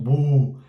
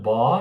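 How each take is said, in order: First: The vowel is a long tense 'oo' sound. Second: The vowel is an open 'aw'-like sound. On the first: "nem é um bu" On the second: "Não é um bó"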